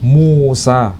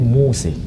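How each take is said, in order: First: The name ends in an open 'a' vowel. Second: The name ends in an 'e' vowel. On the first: This follows the Hafs reading tradition. "Kita menyebutnya nama Musa. Itu kiroah Hafiz" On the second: This follows the Ad-Duri reading tradition. "bukan nama Musa, tapi Muse"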